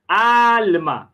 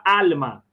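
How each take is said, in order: First: ALMA with a long, held AAL; stress on AL. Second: Said in the usual way. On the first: Shown as a demonstration. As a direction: call out "Alma", stretching the first syllable. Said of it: "é a mais forte". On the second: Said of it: "Olha a palavra alma".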